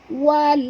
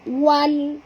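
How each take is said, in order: No difference in how they are said.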